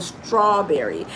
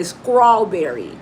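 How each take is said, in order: First: Said in the usual way. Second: "strawberry" said with skr at the start; Southern local pronunciation. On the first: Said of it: "instead of strawberry". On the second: Shown as a demonstration. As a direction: say "strawberry" as scrawberry. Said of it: "some people say strawberry instead of".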